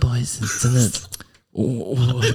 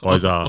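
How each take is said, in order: First: The apology sounds timid and hesitant. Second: The apology sounds rude and careless.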